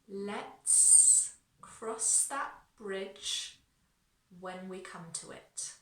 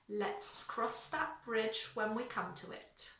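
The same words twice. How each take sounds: First: The sentence is spoken very slowly. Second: The sentence is spoken at a faster pace. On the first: "I'm going to slow it right down" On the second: "A little bit faster"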